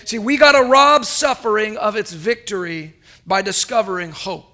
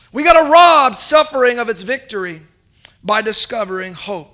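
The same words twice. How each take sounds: First: Said in the usual way. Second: Louder, punching "rob" in "We gotta rob suffering of its victory"; preaching emphasis. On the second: Acted. Preacher repeats his point to the church, louder and driving. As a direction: hammer the repeat home with force.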